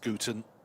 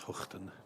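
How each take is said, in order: First: The name starts with a hard g sound. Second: The name starts with a throaty h sound. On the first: "in Australian it's Guten" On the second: "in Dutch it's Huchten"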